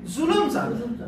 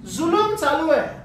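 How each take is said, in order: First: Said in the usual way. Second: Emphatic repeat. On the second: Shown as a demonstration. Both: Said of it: "काय चालू आहे?".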